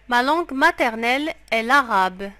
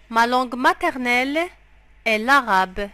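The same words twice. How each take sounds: The two takes are said the same way.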